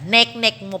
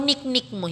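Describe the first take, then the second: First: The repeated syllable has an 'e' vowel. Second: The repeated syllable has an 'i' vowel. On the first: The speaker calls it right. "Nek-nek mo pala. Ito yun" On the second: The speaker calls it wrong. "Nahalatang Bisaya ako eh. Hindi pala"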